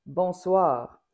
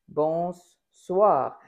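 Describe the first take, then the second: First: «Bonsoir» said cleanly, short single S; bonsoir demo. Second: «bonsoir» with a long doubled S, bonss-soir. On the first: Teacher contrasting clean «Bonsoir» with the doubled S. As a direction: say «Bonsoir» with one quick S. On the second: Teacher repeating the doubled S in «bonsoir», S held. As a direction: lean on the S of «bonsoir», holding it. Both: Shown as a demonstration. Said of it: "comme si je doublais le S".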